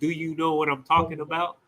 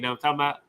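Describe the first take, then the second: First: Every word of the phrase is said in full. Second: The opening words are squeezed into a short reduced form. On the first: "instead of saying" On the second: "They say"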